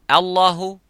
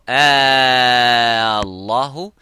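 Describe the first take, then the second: First: The opening vowel is short. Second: The opening vowel is drawn out long. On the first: It names Allah as a statement. "that Allah" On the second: It asks a question about Allah. "that means did Allah or have Allah told you that?"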